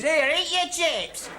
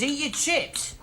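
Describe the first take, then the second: First: High, drawn-out bellow from offstage; mock bellow. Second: High-pitched mocking quote of unwanted advice. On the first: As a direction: holler it like a heckler in the wings. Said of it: "a voice bellowing from the wings". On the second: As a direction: throw the advice back, pitched right up. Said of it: "all you can say is".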